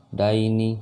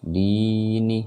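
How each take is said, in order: First: "daini" with a brief dai glide; short diphthong. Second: "Dini" with the first i held long; long vowel. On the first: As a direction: chant "daini" without holding the first syllable. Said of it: "jangan dibaca panjang". ("daini" tidak dibaca panjang) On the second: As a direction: stretch "Di" on a steady chanted note. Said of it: "baca panjang dan ini". ("Dini" dengan di dipanjangkan) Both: Shown as a demonstration.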